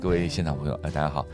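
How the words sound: It is said softly and hesitantly.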